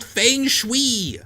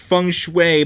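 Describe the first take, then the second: First: "feng shui" said high and slow as fayng-shwee; spelling pronunciation. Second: "feng shui" said as fung-shway; correct pronunciation. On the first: Reader mocking the spelling of "feng shui", high fayng-shwee. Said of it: "it's spelled feng shui". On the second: Reader conceding how "feng shui" is pronounced, fung-shway. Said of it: "I know it's pronounced". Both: Shown as a demonstration.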